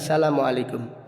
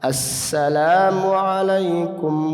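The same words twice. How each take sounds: First: The long a in salam is cut short. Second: The long a in salam is clearly held. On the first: The speaker calls it wrong. "Seringkali kita mendengar imam seakan-akan baca assalamualaikum" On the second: The speaker calls it right. "Jadi alifnya harus jelas"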